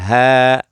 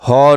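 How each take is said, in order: First: The syllable is said with a thin, light sound. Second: The syllable is said with a thick, heavy sound. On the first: The speaker calls it right. "इसको भी बारीक" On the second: The speaker calls it wrong. "हो नहीं पढ़ेंगे"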